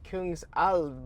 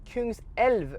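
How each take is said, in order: First: The second syllable has an 'ah' vowel. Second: The second syllable has an 'eh' vowel. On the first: The speaker calls it wrong. "I was pronouncing it wrong, I think, because I was saying like Kungsalv" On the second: The speaker calls it right. "but it's Kungselv, right? Kungselv, King's River"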